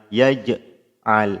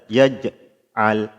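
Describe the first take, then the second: The two takes are said the same way.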